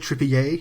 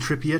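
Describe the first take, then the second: First: The name is said with French pronunciation. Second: The name is said with English pronunciation.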